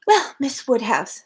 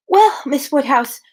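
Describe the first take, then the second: First: Harriet, first take. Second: Harriet, sighing take. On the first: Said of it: "said Harriet". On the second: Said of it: "with a gentle sigh". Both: A narrator's reading.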